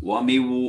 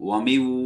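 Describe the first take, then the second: No difference in how they are said.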